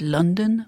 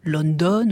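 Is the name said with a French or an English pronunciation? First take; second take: English; French. First: The name is said with an English pronunciation. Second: The name is said with a French pronunciation. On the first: The speaker calls it right. "Ça devrait être London" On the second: The speaker calls it wrong. "là, je vous les prononce à la française"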